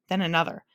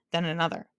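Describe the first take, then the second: No difference in how they are said.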